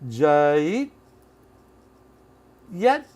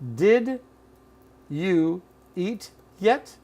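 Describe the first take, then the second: First: Did is dropped and you becomes ja. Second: Every word is said fully and separately. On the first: "Which is further reduced to" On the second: "Here it is"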